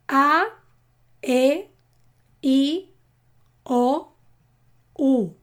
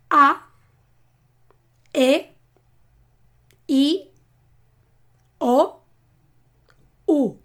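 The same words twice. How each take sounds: First: The vowels are said a little faster. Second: The vowels are said slowly and separately.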